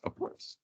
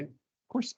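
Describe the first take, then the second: First: Soft unvoiced whisper of course; whispered aside. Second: Said in the usual way. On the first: Shown as a demonstration. Teacher to class, murmured aside in a whisper. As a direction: breathe it as a quiet aside.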